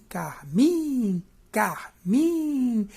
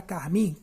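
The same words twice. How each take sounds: First: "carmim" split, with a loud, long-held "miiim"; short "car", then stretch and swell the "mim" of "carmim"; stress on "mim". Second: Said in the usual way. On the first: Shown as a demonstration. Teacher proving the strongest syllable, "carmim" with exaggerated long final "mim". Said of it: "a sílaba mais forte é o mim". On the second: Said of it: "Se você pegar a palavra carmim".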